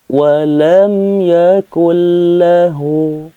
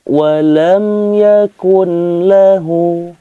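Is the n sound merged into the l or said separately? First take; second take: merged; separately. First: The n sound merges into the following l. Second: The n sound is said separately before l. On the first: The speaker calls it right. "langsung dileburkan ke huruf lam" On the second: The speaker calls it wrong. "Tidak boleh seperti itu"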